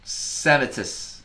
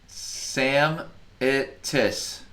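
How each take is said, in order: First: "Samitis" run together as one word; said fast. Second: "Sam it tis" split into three slow separate syllables; sounding out words. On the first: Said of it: "Say it fast". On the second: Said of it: "Say it". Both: Shown as a demonstration.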